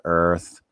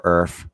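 First: Said in the usual way. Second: "Earth" ending in an f sound; "Earth" with th turned to f; alternative pronunciation of Earth. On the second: Shown as a demonstration. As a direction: say "Earth" as "Erf". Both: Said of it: "however you wanna pronounce it".

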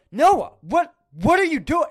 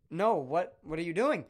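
First: Much higher and louder, a squealing disbelieving cry; shocked shriek. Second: Said in the usual way. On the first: Retold or imitated. Shrieking at Noah in retold horror. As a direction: screech it in horrified disbelief.

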